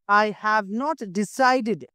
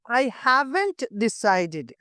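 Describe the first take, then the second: First: 'Have not' is said as two full words. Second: 'Have not' is contracted into one syllable. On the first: "Have not"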